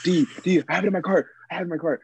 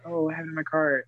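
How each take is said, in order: First: Higher-pitched imitation of a frantic friend; hammed-up frantic repeating, pitched up; mock screaming. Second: Softer, understated imitation of a friend; mock calm. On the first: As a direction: mimic his panic without really yelling. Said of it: "You were screaming". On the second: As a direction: say it casually, as if totally unbothered. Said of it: "Adrian was not that calm".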